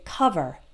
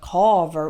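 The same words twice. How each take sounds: First: The first vowel sounds like a short uh. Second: The first vowel sounds like a full O. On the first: The speaker calls it right. "We say cover ... it's that same uh sound" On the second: The speaker calls it wrong. "the O, it's an O, but we don't say cover"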